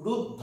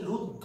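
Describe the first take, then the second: First: রুদ্ধ said with an open অ ending, ruddh-aw; wrong pronunciation demo. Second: রুদ্ধ said with a round o vowel, rudd-dho; pronunciation demo. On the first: Teacher shows the sound students should avoid in রুদ্ধ. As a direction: show রুদ্ধ the wrong way with a flat অ end. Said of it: "অ, এইভাবে আমরা উচ্চারণ করি না". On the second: Teacher shows the class how রুদ্ধ really sounds. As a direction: model রুদ্ধ ending in a clear o sound. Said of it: "আমরা যখন উচ্চারণ করি তখন দেখুন আমরা বলছি রুদ্ধ". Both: Shown as a demonstration.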